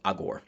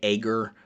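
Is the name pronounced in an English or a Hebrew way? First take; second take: Hebrew; English. First: The name is said with a Hebrew-style pronunciation. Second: The name is said with an English-style pronunciation. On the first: The speaker calls it right. "Hebrew pronunciation would be closer to Agor" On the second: The speaker calls it wrong. "a lot of preachers in English will say Agur"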